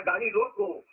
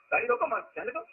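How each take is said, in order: First: Slow, with the weight on रोको and a break after it; stress on रोको. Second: Group मत with रोको and release जाने दो separately; stress on मत. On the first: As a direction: land on रोको and stop there. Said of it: "यहाँ बल है". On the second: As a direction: run रोको into मत, then break before जाने दो. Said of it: "आप मत पर बल दे दीजिए तो गाड़ी पास कर जाएगी". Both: Shown as a demonstration.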